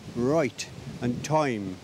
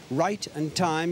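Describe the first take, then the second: First: It is said in a Midlands accent. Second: It is said in a standard accent.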